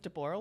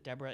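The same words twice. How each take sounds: First: The name is said the old Hebrew way. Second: The name is said the usual American way. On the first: "It's actually the old pronunciation. It's considered the Hebrew pronunciation" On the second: "the only place that pronounces it Deborah is here in the U S"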